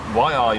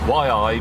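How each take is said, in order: First: It sounds like an urgent warning. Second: It sounds like a dismayed groan. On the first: Look out. "meaning look out" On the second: Oh no. "meaning oh no"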